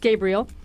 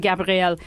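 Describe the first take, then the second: First: The name is said with an English accent. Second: The name is said with a French accent. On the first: The speaker calls it right. "but it's Gabriel" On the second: The speaker calls it wrong. "I put like a French accent on some of the names. So I always want to say Gabriel"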